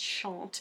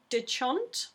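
First: The name is said with a French pronunciation. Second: The name is said with an English pronunciation. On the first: The speaker calls it right. "he's probably French and it's Chant" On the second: The speaker calls it wrong. "I've probably pronounced that wrong"

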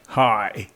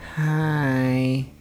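First: The greeting is said strongly and forcefully. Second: The greeting is said weakly and quietly.

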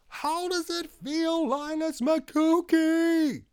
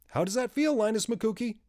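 First: It is shouted very loudly. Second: It is said a little louder.

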